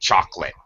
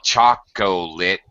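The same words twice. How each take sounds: First: The middle syllable is dropped. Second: All three syllables are pronounced. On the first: The speaker calls it right. "we say chocolate" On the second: The speaker calls it wrong. "native speakers don't say chocolate"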